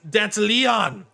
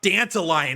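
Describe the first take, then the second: First: It sounds like Danteleon, one sound changed. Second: It sounds like the flower name, dandelion. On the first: The speaker calls it right. "you're saying it wrong, it's Danteleon" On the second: The speaker calls it wrong. "It's not Dandelion"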